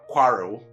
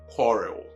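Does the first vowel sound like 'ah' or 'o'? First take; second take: ah; o. First: The first vowel sounds like an open 'ah'. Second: The first vowel sounds like a short rounded 'o'. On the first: The speaker calls it wrong. "this one too is also never quarrel" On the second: The speaker calls it right. "but what? Quarrel"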